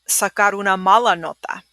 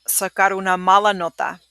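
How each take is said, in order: No difference in how they are said.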